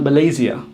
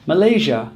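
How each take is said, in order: First: "Malaysia" as muh-LAY-zee-uh; mispronounced Malaysia. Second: "Malaysia" as muh-LAY-zhuh; correct Malaysia. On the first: Teacher showing what not to say, mispronounced. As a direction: say "Malaysia" wrongly with a ZEE-uh ending. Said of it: "and not Malaysia". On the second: Teacher giving another example, correct pronunciation. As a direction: say "Malaysia" with a ZH ending. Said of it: "Same is true for". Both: Shown as a demonstration.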